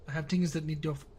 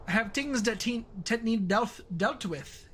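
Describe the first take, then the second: First: Said in the usual way. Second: Attempted Scottish accent, pitched higher. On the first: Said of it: "I don't know why I wrote it that way". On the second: Shown as a demonstration. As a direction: have a rough stab at a Scottish accent. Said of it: "if you were doing the Scottish accent".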